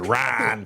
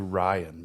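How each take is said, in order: First: The name is said with one syllable. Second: The name is said with two syllables. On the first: The speaker calls it right. "one syllable, just one syllable" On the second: The speaker calls it wrong. "we want to say Ryan, but we know that's not right"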